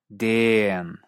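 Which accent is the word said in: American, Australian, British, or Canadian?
Australian. The vowel is drawn out extra long, Australian style. "o incluso como una vocal extra larga"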